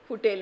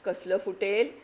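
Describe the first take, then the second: First: Mocking echo. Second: Scornful doubt. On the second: Acted. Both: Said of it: "म्हणे".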